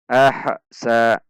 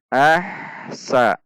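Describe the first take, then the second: First: The h bounces with a break before sa. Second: The h flows smoothly into sa without a break. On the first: The speaker calls it wrong. "banyak yang membaca dengan cara memantul" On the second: The speaker calls it right. "huruf ha tidak tertahan"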